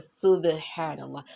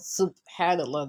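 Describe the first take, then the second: First: The b sound has an echoing, bouncing release. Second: The b sound is plain, without an echoing bounce. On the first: The speaker calls it right. "because the ba you apply qalqala" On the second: The speaker calls it wrong. "not subhanallah that like I've been pronouncing it"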